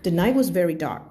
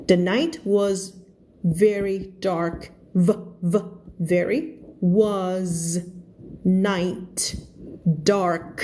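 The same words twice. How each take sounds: First: Words run together as in real speech; quicker, joined-up reading without gaps; connected natural reading. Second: Slow reading with each word separate and clear; word-by-word practice reading. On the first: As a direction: link the whole sentence in one flow. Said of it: "มันก็จะเป็นการรวมใช่ไหม". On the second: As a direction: sound out every word carefully, pausing between them. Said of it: "ฝึกอ่านเป็นคำๆแบบนี้". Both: Shown as a demonstration.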